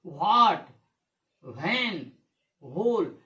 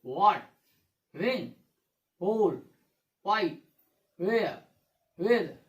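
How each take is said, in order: First: "व्हाट", "व्हेन", "व्होल" with a heavy breathy h after the v; wrong pronunciation. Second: "व्हाट, व्हेन, व्होल" with the silent letter dropped, wat, wen, hol; correct pronunciation. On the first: Teacher mimicking how children misread the words, wrong pronunciation. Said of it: "ये wrong है।". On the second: Teacher modelling the right reading for pupils, correct pronunciation. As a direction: say "व्हाई, वेयर, वेदर" as wai, wear, weather, no extra h. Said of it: "क्या पढ़ेंगे इसको?". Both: Shown as a demonstration.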